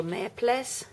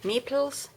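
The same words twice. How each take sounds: First: "meeples" said as MEP-less; alternative pronunciation. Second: "meeples" said as MEE-pulz; alternative pronunciation. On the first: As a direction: say "meeples" with a short e and a clear "less" ending. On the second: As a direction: say "meeples" with a long ee and a short "pulz" ending. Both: Real, not acted. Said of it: "is it meeples or meeples?".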